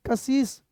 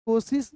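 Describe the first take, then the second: First: कशिश said with a short a, ka-shish, not ko; correct pronunciation. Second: कोशिश said with o in the first syllable, as the wrong form; the mistaken कोशिश, ko-shish; wrong pronunciation. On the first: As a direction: stress the correct कशिश with a short first vowel. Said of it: "कोशिश नहीं, कशिश". (सही उच्चारण कशिश, क पर छोटा अ) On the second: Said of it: "कोशिश नहीं". (गलत उच्चारण कोशिश) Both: Shown as a demonstration.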